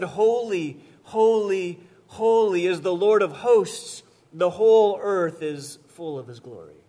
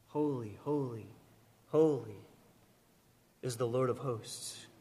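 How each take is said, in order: First: Loud, ringing proclamation of the seraphim's song; proclaimed aloud. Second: Much softer, low, reverent murmur; hushed reverence. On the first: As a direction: call it out like scripture read to the whole hall. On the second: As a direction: breathe it like a sacred secret. Hushed echo of the seraphim's song. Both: Acted.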